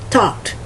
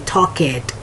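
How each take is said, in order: First: The ending joins the word as one syllable. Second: The ending is said as an extra syllable. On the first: "It ends in ed" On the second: "A lot of times people want to say talk it"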